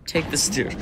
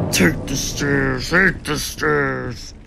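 First: Said in the usual way. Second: Slow, heavy mock Hulk. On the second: Player hamming up Hulk on the stairs, slow mock Hulk. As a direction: drag it out like a lumbering brute. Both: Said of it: "I'm like Hulk".

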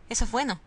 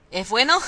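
First: Said in the usual way. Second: ¿Es bueno? thrown back with a louder rising doubt; doubtful echo. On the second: Real, not acted. Questioning the game's claim, louder and doubtful. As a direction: question the line she just read.

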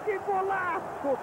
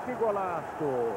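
First: Excited exclamation. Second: Said in the usual way. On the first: Real, not acted. Repeated exclamation higher.

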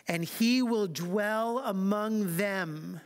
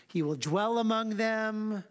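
First: Said in the usual way. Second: Slow, with "among" leaned on and lifted; slow down and press on "among"; stress on among. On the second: Shown as a demonstration. Pastor pointing his congregation to the key word, stressing "among". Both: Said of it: "Do you see the emphasis?".

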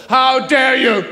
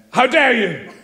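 First: Louder, hammed-up stage outrage; pompous theatrical indignation; Victorian theatre. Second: A touch of melodrama; lightly hammed stage outrage; mild theatrical indignation; Victorian theatre. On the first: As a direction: puff up like a stage villain. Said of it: "They feel twelve feet tall". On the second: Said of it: "Straight from Victorian theatre".

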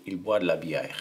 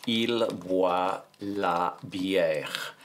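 First: Said in the usual way. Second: Very slow French, each word stretched out; slow dictation. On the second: Shown as a demonstration. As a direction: dictate word by word, taking your time. Dictating the sentence while writing it.

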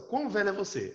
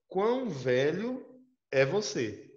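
First: "Quão" pitched up then falling; teacher showing the odd literal phrasing; literal translation read out. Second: Slow, stressed QUÃO rising; awkward word-for-word Portuguese, "Quão velho" dragged out; literal translation read out. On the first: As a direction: lift "Quão velho é você" then drop. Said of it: "Olha só". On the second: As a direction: stretch "Quão" slowly with a rise. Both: Shown as a demonstration.

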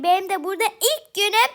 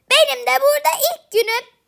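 First: Said in the usual way. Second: Said again louder and higher, with "Benim" stressed; a much louder, higher repeat of "Benim de burada ilk günüm"; louder, higher retake. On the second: Shown as a demonstration. (daha yüksek ve tiz tekrar)

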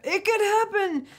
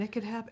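First: Very high, drawn-out playful voice; squeaky, stretched wishful aside; high-pitched hopeful. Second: Said in the usual way. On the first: Pretend. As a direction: sing it out high and teasing. Repeats it in exaggerated high voice.

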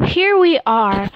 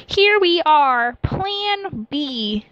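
First: Said in the usual way. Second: High, loud, drawn out; loud and slow. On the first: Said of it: "Wait, no". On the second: Acted. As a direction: announce it grandly, slowly. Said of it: "said rather loudly".

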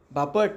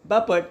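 First: "Bapat" with a rising end; her way of saying it. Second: "Bapat" pitched high, falling at the end; said like "popat". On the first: Schoolmaster acts out her saying the name, "Bapat" with rising tune. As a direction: say "Bapat" lightly, pitch lifting at the end. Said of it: "आणि म्हणाली". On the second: Schoolmaster mimics her calling the man, "Bapat" high then falling. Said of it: "तसं ती म्हणाली". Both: Acted.

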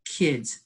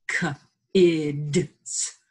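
First: Said in the usual way. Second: "K-ids" split into its sounds, K then ids; sounding out. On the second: Shown as a demonstration.

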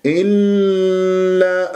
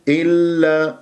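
First: إلا with the ل dragged on, raised pitch; overlong lam mistake. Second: إلا with the doubled ل held briefly; short firm lam. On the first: Teacher shows the mistake, lam gone slack. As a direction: stretch the doubled lam in إلا. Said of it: "صارت رخوة". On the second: Teacher shows the correction, brief firm lam. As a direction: release the lam in إلا promptly. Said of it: "لا تطل جريان الصوت". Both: Shown as a demonstration.

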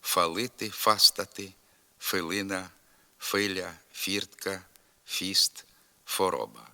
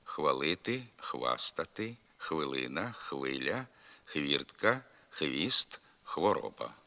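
First: Фалити, фіст, фороба with a plain f, dialect style; dialectal f for khv. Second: Хвалити, хвіст, хвороба with full kh plus v; standard khv cluster. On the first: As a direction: say one f sound in place of «хв» in фалити, фастати, филина. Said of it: "вимовляється як один звук «ф»". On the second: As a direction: keep both sounds of «хв» in хвалити, хвастати, хвилина. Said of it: "треба зберігати і в вимові". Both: Shown as a demonstration.

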